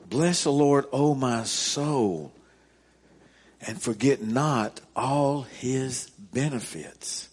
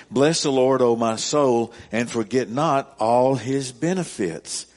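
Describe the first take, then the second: First: Slow, deliberate reread. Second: Loud, ringing proclamation of the verse; booming scripture reading. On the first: Pastor rereading the psalm so the congregation takes it in, slow and deliberate. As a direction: linger over every phrase of the verse. Repeating the verse slowly. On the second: Pastor proclaiming the psalm to his congregation, loud and ringing. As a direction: call the verse out to the whole room. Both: Acted.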